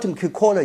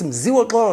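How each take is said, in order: First: The name is said with anglicized, garbled sounds. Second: The name is said with its native sounds. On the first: The speaker calls it wrong. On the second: The speaker calls it right.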